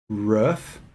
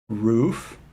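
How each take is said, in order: Both takes have the same delivery.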